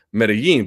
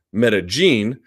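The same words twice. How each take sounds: First: Medellin said "meh-deh-YEEN"; y sound in Medellin. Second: Medellin said "meh-deh-JEEN"; j sound in Medellin. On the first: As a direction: make the double L in Medellin a Y. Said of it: "Y as a J". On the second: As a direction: make the double L in Medellin a J. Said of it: "would have to pronounce". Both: Shown as a demonstration.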